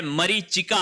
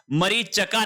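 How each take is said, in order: First: मरीचिका with "chi"; correct pronunciation. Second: मरीचका with "cha", no i; wrong pronunciation. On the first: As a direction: sound the i in मरीचिका, "ma-ree-chi-ka". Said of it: "मरीचिका होता है". (मरीचिका में "चि" साफ़) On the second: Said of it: "मरीचका नहीं होता है". (मरीचका में "च" बिना इ के) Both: Shown as a demonstration.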